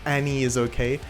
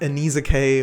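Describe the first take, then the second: First: The middle 'is' is said as a separate word. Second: The middle 'is' is blended into the name. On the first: The speaker calls it right. "it is kind of pronounced like Annie is okay" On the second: The speaker calls it wrong. "At first, you might read it as Annie's Okay or something like that"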